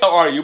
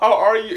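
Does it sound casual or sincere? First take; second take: casual; sincere. First: It sounds casual and routine. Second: It sounds sincere and caring.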